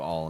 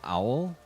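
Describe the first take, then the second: First: The name rhymes with 'ball'. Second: The name rhymes with 'howl'. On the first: "I'm going to do All" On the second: "not Owl"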